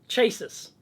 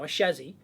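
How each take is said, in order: First: The word begins with a hard ch sound. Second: The word begins with a soft sh sound.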